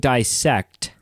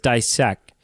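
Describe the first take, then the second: First: The word ends with a clear t sound. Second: The word ends without its final t sound. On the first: This is the complete word. "Instead of saying dissect" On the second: The word was left unfinished. "T that she leaves off"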